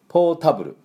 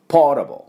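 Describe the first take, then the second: First: The vowel after the t is full and clear. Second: The vowel after the t is light, barely voiced. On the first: The speaker calls it wrong. "ポータブルではありません" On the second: The speaker calls it right. "ポータブルっていう風になります。あを軽くね、出すか出さないかぐらい"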